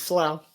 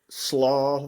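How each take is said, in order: First: The vowel sounds like 'ow' in 'plow'. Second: The vowel sounds like 'aw' in 'saw'. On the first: The speaker calls it right. "but it's slough" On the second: The speaker calls it wrong. "slaw. That's my favorite slaw"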